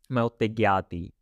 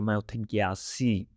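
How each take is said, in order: First: The last word begins with a T sound. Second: The last word begins with an S sound. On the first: This is how it is said in some areas. "Some people say T" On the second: This is how most speakers say it. "I will say like"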